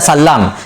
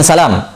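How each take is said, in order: First: The l sound is doubled and held longer. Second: The l sound is single and short. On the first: "maka baca tasdid, baca salam" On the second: "kecuali lima orang ini"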